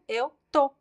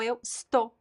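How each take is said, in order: First: The verb is shortened to one syllable. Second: The verb is said with both syllables.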